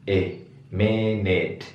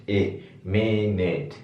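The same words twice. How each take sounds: No difference in how they are said.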